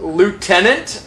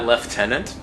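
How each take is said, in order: First: It is said with an American pronunciation. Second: It is said with a British pronunciation.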